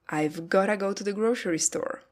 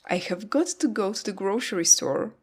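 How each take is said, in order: First: It is reduced to 've gotta. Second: Have got to is said in full. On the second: "Have got to becomes gotta"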